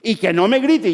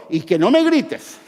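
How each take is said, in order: First: Mock yell, louder. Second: Mock yell. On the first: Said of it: "empiezo a gritar yo". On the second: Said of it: "los que tienen el afán de control".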